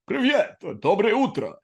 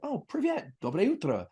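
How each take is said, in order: First: It is said in an exaggerated fake Russian accent. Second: It is said plainly, without a put-on accent.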